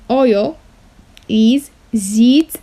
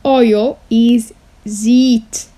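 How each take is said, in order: Both takes have the same delivery.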